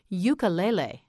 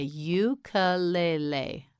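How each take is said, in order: First: Said in the usual way. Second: "Ukulele" slowly, every syllable separate. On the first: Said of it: "Try it again". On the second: Shown as a demonstration. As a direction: stretch out "Ukulele" for a learner. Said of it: "You say it. Say".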